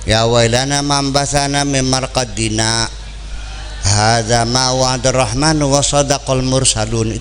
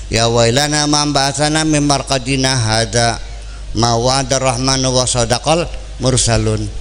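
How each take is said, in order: First: There is a short pause after 'marqadina'. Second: It is read straight through without a pause. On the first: The sleepers ask a question and angels answer it. The speaker calls it right. "Seharusnya gimana?" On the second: The sleepers say God made no promise. The speaker calls it wrong. "Boleh begitu?"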